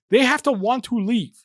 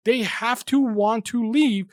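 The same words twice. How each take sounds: First: Said in the usual way. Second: "They have to want to leave" said slowly, each word weighted, high and falling on "leave"; slow emphatic repeat. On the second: Shown as a demonstration. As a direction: drive it home slowly, falling hard on "leave".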